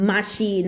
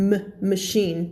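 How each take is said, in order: First: "machine" as maa-SHEEN with a full a; "machine" with a heavy first syllable; overdone first vowel. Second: "machine" with a short weak muh first; "machine" with a reduced schwa; schwa shown. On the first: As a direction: lengthen the a in "machine". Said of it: "มันจะไม่ออกเสียงแบบ". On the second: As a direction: sound out "m", then "machine" as muh-SHEEN. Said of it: "ชวาคือเสียงเอะนะคะ". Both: Shown as a demonstration.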